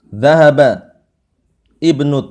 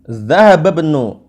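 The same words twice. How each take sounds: First: There is a break and ibnu starts with a glottal stop. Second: The words run together without a glottal stop. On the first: "kalau kita putus" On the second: "ini kalau kita sambung"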